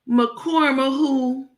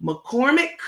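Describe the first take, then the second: First: McCormick said as "ma-corma-who", drawn out slowly; mock mispronunciation. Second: Said in the usual way. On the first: Mocking how Crook says the brand, McCormick garbled into "ma-corma-who". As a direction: stretch McCormick into a wrong "ma-corma-who", pitched up. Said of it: "She calls them". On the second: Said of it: "it's Lawry's and it's McCormick".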